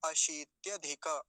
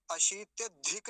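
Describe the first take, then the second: First: अशीत्यधिक slow, ending "dhika"; careful अशीत्यधिक with an open ending; full final vowel. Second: अशीत्यधिक ending on a bare k; अशीत्यधिक cut off as "dhik"; wrong form. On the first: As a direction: sound the last a of अशीत्यधिक. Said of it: "हलंत नहीं है तो क्या बोलेंगे". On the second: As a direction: drop the final a of अशीत्यधिक. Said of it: "नहीं बोलेंगे". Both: Shown as a demonstration.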